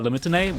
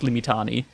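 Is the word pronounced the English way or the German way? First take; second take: English; German. First: It is pronounced the English way. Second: It is pronounced the German way. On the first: "When I say English, when I speak in English, I say" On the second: "When I speak German, it's like"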